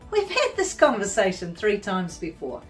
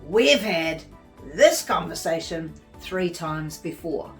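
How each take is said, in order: First: The tone is light and playful. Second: The tone is tense and forceful. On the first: The speaker is just having a joke. "haha, they're just having a joke" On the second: The speaker is seriously upset. "freaking out"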